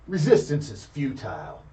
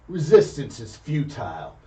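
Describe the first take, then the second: The two takes are said the same way.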